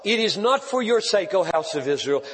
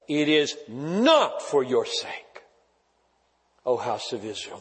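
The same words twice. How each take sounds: First: It is read at a normal pace. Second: It is read slowly and deliberately.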